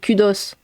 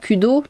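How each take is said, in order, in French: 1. La consonne finale est prononcée. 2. La consonne finale est muette. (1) "C'est-à-dire qu'on prononce les S" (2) "c'est pas Kudo"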